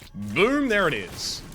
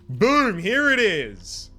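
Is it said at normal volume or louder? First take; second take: normal volume; louder. First: It is said confidently at normal volume. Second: It is said confidently and more loudly.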